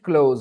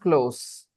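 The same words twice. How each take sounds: First: The word is said like the verb close. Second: The word is said like the adjective close. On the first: The speaker calls it wrong. "We do not pronounce it close" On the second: The speaker calls it right. "It is pronounced close"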